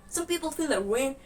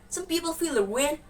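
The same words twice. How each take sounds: Both takes have the same delivery.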